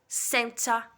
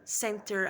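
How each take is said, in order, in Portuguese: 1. É pronunciado com sotaque britânico. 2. É pronunciado com sotaque americano. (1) "o britânico ... ele vai falar" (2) "o americano ele fala"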